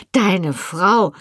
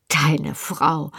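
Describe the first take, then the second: First: Indignant echo. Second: Scornful echo. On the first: Wife repeats her husband's claim, openly indignant. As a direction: throw his words back with rising outrage. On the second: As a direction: throw his words back under your breath. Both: A narrator's reading. Wife throws his words back.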